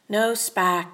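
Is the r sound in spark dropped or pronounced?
dropped. Said in a Maine accent, with no r.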